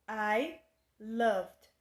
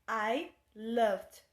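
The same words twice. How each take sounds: The two takes are said the same way.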